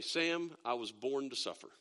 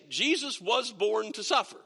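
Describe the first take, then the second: First: Mock dramatic. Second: Said in the usual way. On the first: Dad answering his daughter's money request, mock tragic. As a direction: lower and softer, a playfully martyred sigh of a line. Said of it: "you're so dramatic". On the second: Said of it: "well, here's the thing".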